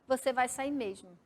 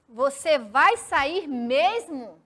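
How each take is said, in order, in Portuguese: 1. Tem entonação de afirmação, terminando como um ponto final. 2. Tem entonação de pergunta, com pressão na última palavra. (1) "se eu ler como se fosse um ponto final, eu ia ler como uma frase afirmativa, declarativa" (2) "Aquela pressão mais forte na última palavra, dando aquela entonação de pergunta"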